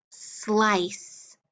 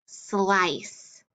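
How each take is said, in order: Both takes have the same delivery.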